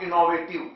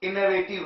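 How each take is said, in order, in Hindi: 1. दूसरा स्वर पूरा 'o' ध्वनि है। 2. दूसरा स्वर हल्का 'uh' ध्वनि है। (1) "नॉट इनोवेटिव" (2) "ऐसे ही इनोवेटिव"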